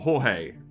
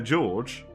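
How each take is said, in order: First: The name is said with a Spanish pronunciation. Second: The name is said with a Portuguese pronunciation. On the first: "which is the Spanish way" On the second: "which is apparently the Portuguese way"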